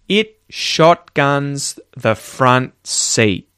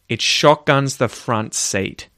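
First: The final T in seat is silent. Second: The final T in seat is released. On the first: "not hear a single T ... That is a possible way of saying that sentence" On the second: "I actually did say it at the end there"

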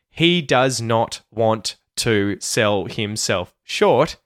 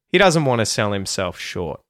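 First: 'Does not' is said as two full words. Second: 'Does not' is contracted to 'doesn't'.

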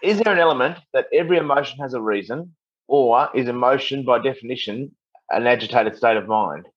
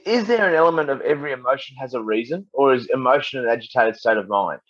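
First: It is said more slowly. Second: It is said at normal speed.

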